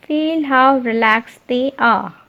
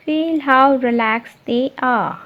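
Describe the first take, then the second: No difference in how they are said.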